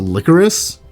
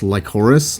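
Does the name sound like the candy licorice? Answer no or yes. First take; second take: yes; no. First: The name sounds like the candy licorice. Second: The name does not sound like the candy. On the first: This is how the game's characters say the name. "but they pronounce it Licorice" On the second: This is how the speaker believes the name is said. "I swear it's pronounced Lycoris, like Lycoris Recoil"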